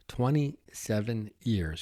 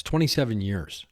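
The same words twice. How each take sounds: First: Twenty-seven years said slowly and a bit softer, letting it sink in; slow emphatic repeat. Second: Said in the usual way. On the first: Real, not acted.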